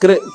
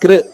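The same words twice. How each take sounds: First: The syllable is said with a vocalic r sound. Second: The syllable is said with a vocalic r sound.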